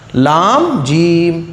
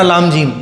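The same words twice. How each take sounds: First: The second word is stretched out long. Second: The second word is said short and quick. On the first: The speaker calls it right. "जीम को आपको थोड़ा सा खींचना है" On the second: The speaker calls it wrong. "ऐसे नहीं पढ़ना"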